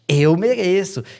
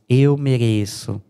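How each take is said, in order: First: It is said in a glad, pleased tone. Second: It is said in a weary, annoyed tone. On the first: The speaker happily accepts a deserved reward. "alguém te ofereceu um milhão de reais ali, ah" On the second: The speaker complains about deserving this trouble. "alguém enchendo o seu saco, ai meu Deus"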